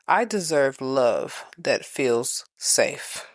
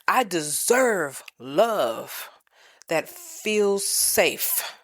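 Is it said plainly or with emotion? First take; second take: plainly; with emotion. First: It is said plainly, without much emotion. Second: It is said with strong emotion.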